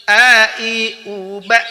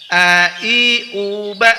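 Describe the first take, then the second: The two takes are said the same way.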